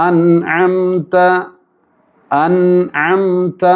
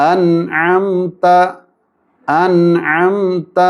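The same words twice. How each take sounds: The two takes are said the same way.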